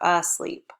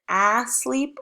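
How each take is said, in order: First: The first vowel sounds like 'uh'. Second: The first vowel sounds like 'ah'. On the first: The speaker calls it right. "it's asleep. Sometimes that A makes the uh sound" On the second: The speaker calls it wrong. "We could just say ah"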